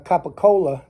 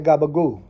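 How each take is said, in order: First: It is said in full with clear final vowels. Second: It is clipped, voiced, and drops the final vowel. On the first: "they call it down here" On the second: "They're going to say Gabagoo"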